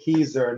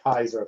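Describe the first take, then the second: First: The first syllable sounds like 'key'. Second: The first syllable sounds like 'kai'. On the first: The speaker calls it right. "we all say Keiser" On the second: The speaker calls it wrong. "not Kaiser from now on"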